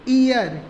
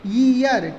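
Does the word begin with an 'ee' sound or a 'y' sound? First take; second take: ee; y. First: The word begins with a plain 'ee' vowel. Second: The word begins with a 'y' consonant sound. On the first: The speaker calls it wrong. "अधिकतम लोग इसको क्या पढ़ते हैं ... यह ईयर नहीं है" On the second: The speaker calls it right. "ई ना होके यह का साउंड यहाँ पर, वाई का साउंड यहाँ पर होता है"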